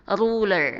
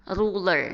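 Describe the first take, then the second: The two takes are said the same way.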